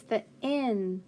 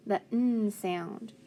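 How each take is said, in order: First: Said in the usual way. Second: "N" as a held "nnn"; letter sound. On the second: Shown as a demonstration. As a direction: hum the bare sound of "N", not "en". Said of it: "it's the N".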